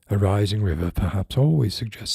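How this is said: It is read in a put-on character voice.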